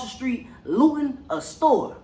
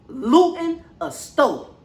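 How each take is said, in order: First: Said in the usual way. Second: Slow, drawn-out disbelief; stretched-out disbelief; incredulous repeat. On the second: Real, not acted. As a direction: say it like you can't believe it.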